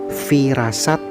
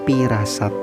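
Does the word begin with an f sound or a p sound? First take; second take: f sound; p sound. First: The word begins with an f sound. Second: The word begins with a p sound. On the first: This is the form in the original language. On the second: This is the form adapted to Sundanese.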